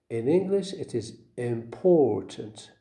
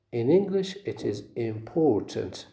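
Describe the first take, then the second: No difference in how they are said.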